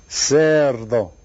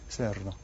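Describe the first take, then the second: First: Loud, stretched "Cerdo"; stress on first syllable. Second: Said in the usual way. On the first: Shown as a demonstration. Teacher presents a new word, "Cerdo" loud on its first syllable. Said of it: "How about this word?". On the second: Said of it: "The first one".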